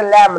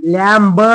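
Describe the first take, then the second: First: "लॅम्ब" said as just lam; silent B. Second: "लॅम्ब" with the B sounded plus a short vowel; wrong pronunciation. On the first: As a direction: end "लॅम्ब" on M, dropping the B. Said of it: "फक्त लॅम्ब". ("लॅम्ब", ब silent ठेवून) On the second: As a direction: say "लॅम्ब" as lam-buh. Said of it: "नाही म्हणायचं मित्रांनो". ("लॅम्ब", ब स्पष्ट उच्चारून) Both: Shown as a demonstration.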